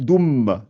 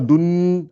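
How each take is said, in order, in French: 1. Le son n se fond dans le m qui suit. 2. Le son n est clairement prononcé. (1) "on supprime le noun, donc, et on attaque directement le mim" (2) "Je ne fais pas doun avec le N"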